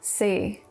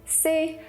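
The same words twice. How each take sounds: First: The pitch falls from low to very low. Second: The pitch stays high and level. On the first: "Four is low falling tone" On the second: "Number one is the high tone"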